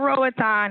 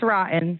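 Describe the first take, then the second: First: The name does not sound like 'rotten'. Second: The name sounds just like 'rotten'. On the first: "Instead of Roatan" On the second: "it's rotten"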